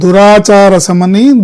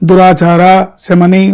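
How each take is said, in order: First: The two words run together without a pause. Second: There is a pause after the first word. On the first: She is the mother who removes bad conduct. The speaker calls it right. "ఒకవేళ దురాచారం ఉంటే ఆ దాన్ని కూడా పోగొట్టే తల్లి అని" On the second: The mother herself is of bad conduct. The speaker calls it wrong. "దురాచార అని అక్కడ పాజ్ ఇచ్చి"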